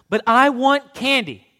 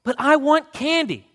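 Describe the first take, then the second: First: Put-on high, loud, slow child's whine; tugging at mom's jacket, slow pleading whine; whining boy. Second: Put-on even higher, loud child's whine; boy whining again for candy, higher and loud. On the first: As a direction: drag it out like a sulking boy. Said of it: "complained some more". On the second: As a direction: whine once more, pitched high. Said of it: "He whined again". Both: A narrator's reading.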